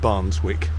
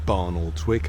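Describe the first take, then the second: First: The name is said shortened, middle syllable dropped. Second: The name is said with all its syllables. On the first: The speaker calls it right. "they pronounce it something like Barnswick" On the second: The speaker calls it wrong. "I don't think it's pronounced Barnoldswick"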